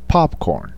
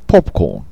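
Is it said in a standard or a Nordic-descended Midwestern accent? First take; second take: standard; Nordic-descended. First: It is said in a standard American accent. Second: It is said in a Nordic-descended Midwestern accent.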